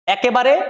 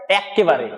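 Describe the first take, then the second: First: Said in the usual way. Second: একেবারে with a long double k, as ekkebare; doubled consonant. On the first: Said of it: "normal". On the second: Shown as a demonstration. Teacher showing the doubled form, emphatic. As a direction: hold the k in একেবারে. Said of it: "জোর দিয়ে বলছি".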